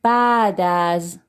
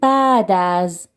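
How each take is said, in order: Both takes have the same delivery.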